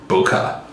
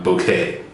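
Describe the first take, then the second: First: The word sounds like 'bokeh'. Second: The word sounds like 'bouquet'. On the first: The speaker calls it right. "I do know it's pronounced bokeh" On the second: The speaker calls it wrong. "not bouquet"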